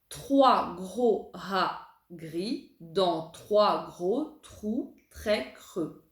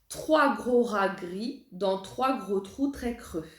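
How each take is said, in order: First: The sentence is said very slowly. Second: The sentence is said a bit faster. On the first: "On va essayer de la dire très lentement" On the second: "un petit peu plus vite"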